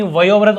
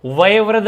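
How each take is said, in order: First: वयोवृद्ध with a full "yo"; correct form वयोवृद्ध. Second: वयोवृद्ध said "vayevriddh", without the "o"; wrong form of वयोवृद्ध. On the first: Teacher restoring the vowel, वयोवृद्ध with clear "o". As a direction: round the second syllable to "yo" in वयोवृद्ध. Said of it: "ओ स्वर की entry करवानी थी". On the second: Teacher showing a missing vowel, वयोवृद्ध without "o". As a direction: replace "yo" with "ye" in वयोवृद्ध. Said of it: "वयोवृद्ध नहीं". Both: Shown as a demonstration.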